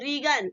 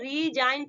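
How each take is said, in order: First: The g is sounded inside the word. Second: The g is silent inside the word. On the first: The speaker calls it wrong. "अब इसे नहीं पढ़ेंगे रीगन" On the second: The speaker calls it right. "इसको हम क्या पढ़ेंगे, रीजाइन पढ़ेंगे"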